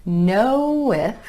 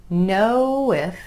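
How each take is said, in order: No difference in how they are said.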